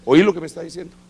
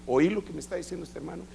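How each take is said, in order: First: Same question pushed louder; insist, making him listen; emphatic repeat. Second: Said in the usual way. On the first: Retold or imitated. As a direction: apostle pressing the point a second time, emphatic. Boss repeats the question, louder second.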